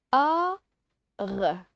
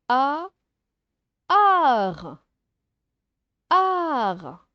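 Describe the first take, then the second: First: A held, pause, then R as "rrr"; separate sounds. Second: A held, then merged into a long AR; blended sounds. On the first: Teacher showing pupils how to decode, separate sounds. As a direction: sound out A and R apart. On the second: Teacher showing pupils how to decode, blended sounds. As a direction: draw out ART as one "aar" sound. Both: Shown as a demonstration. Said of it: "on la prononce R".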